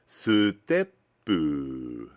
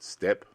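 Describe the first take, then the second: First: It is said with Japanese sounds and added vowels. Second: It is said with English sounds and no added vowels. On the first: "Sutepu, not step" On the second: "not step"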